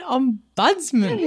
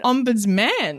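First: Ombudsman drawn out with stress on BUDS; slow, laughing ombudsman leaning on the middle syllable. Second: Ombudsman with a full MAN at the end; different emphasis. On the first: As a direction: query om-BUDS-man slowly, through a laugh. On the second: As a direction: say ombudsman ending in a clear "man". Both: Shown as a demonstration. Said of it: "Yeah, but the emphasis".

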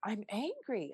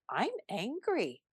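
First: Much softer, sinking in; hushed acceptance of the feeling; softer repeat. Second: Softly naming the feeling; softer, inward admission; quiet realization. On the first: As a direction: let it land, almost to yourself. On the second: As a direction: notice it, say it gently. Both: Retold or imitated. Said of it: "I caught myself and I said".

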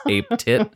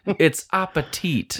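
First: "ape tit" as two separate words, high and laughing; misread word. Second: "appetit" as one word, high and drawn out; correcting the misreading. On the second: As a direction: slowly correct it to "appetit" through laughter. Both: Retold or imitated. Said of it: "Like the Jeopardy".

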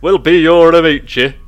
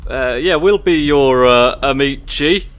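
First: Loud mock Italian amici; imitating proper Italian. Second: Amici said with a mock Italian flourish; proper Italian. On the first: Friend mocks the player's amici, loud mock Italian. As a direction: repeat the friend's amici with exaggerated Italian flair. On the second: Player accepts the dinner invite, mock Italian amici. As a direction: lean into amici like a real Italian. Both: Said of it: "with the most, like, proper".

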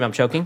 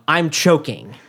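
First: Said in the usual way. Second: Raised, urgent yell of alarm; mock scream. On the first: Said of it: "you can't scream". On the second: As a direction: blurt it like a panicked kid in class. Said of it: "and scream".

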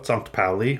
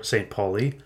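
First: Sankt Pauli said the German way, zahnkt POW-lee; German pronunciation. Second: Saint Pauli said the English way, saint PAW-lee; English pronunciation. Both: Shown as a demonstration. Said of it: "Sankt Pauli or Saint Pauli".

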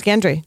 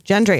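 First: Gendry with a hard G as in get. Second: Gendry with a soft G as in gem. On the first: Unsure how to pronounce his name, hard-G Gendry. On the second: Correcting to another guess at his name, soft-G Gendry. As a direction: say "Gendry" starting with a J sound. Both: Shown as a demonstration. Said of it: "I don't remember how to pronounce his name".

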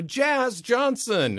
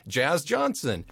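First: A slow, drawn-out "Jazz Johnson", high and a bit loud; plain matter-of-fact naming. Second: Slow, laughing "Jazz Johnson" as it sinks in; laughing realization of the dog's full name; amused realization. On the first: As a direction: say the name like staff who know him well. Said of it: "they go". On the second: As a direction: repeat the name amused and amazed. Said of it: "I'm like". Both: Retold or imitated.

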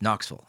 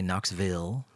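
First: KNOXVILLE run together, ending dissolving; rolled local Knoxville. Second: KNOXVILLE with a full "vill" ending; outsider's Knoxville pronunciation. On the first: Native showing how locals say it, rolled-off ending. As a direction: roll through Knoxville, swallowing "ville" to "vul". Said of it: "It just kinda rolls". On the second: Knoxville native showing how not to say it, full ending. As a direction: sound out the last part of Knoxville fully. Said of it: "you don't say Knoxville". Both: Shown as a demonstration.

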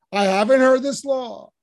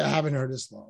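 First: Loud, emphatic, higher; a confident rhetorical declaration, not an admission; rhetorical exclamation. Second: Quieter, lower, stress on "haven't"; a shy, literal confession of not knowing; bashful admission. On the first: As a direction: proclaim it boldly as a rhetorical line. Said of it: "That's rhetorical". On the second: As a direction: admit it softly, a little sheepish. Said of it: "which would have been bashful". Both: Shown as a demonstration.

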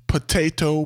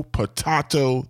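First: "potato" with a long AY, puh-TAY-toh; potato, usual vowel. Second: "potato" with a broad AH, puh-TAH-toh; potato, broad vowel. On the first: Owner refusing word debates, "potato" as puh-TAY-toh. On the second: Owner refusing word debates, "potato" as puh-TAH-toh. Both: Acted. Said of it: "potato debates here".

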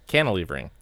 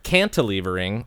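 First: Cantilevering with the T dropped, "cannalevering"; soft T. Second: Cantilevering with a crisp, sounded T; hard T. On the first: Showing co-hosts the second way, cantilevering without T. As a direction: say "cantilevering" with no T after the N. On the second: Showing co-hosts the first way, Cantilevering with hard T. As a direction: say "Cantilevering" with the T after the N pronounced. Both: Shown as a demonstration. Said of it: "I can pronounce it twice".

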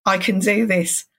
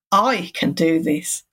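First: I can do this, leaning on "do" with a falling end; stress on do. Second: "I" hit hardest, a little slower; stress on I. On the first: Mantra in the power pose, weight on "do". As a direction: punch "do", let the line drop. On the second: Mantra in the power pose, weight on "I". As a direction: lean on "I" and take your time. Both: Shown as a demonstration. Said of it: "you put different emphasis on the different words".

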